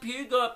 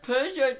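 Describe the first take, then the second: First: It starts with pew and ends with got. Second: It starts with per and ends with jo. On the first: "I got the pew right, didn't get the jo, went with got" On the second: "You got per wrong, you got the je right"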